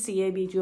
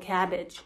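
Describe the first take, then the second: First: Each letter is spoken separately. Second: It is spoken as one word, cabbage. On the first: The speaker calls it wrong. "不是CABG" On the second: The speaker calls it right. "我们叫做cabbage，就是蔬菜的那个cabbage"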